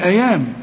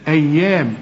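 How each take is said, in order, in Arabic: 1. صوت الياء مفرد وقصير. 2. صوت الياء مشدد ويُمدّ أطول. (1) "طب لو ما فيش الشدة أيام، هتقول لي أيام" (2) "وشوف الياء عليها الإيه؟ الشدة"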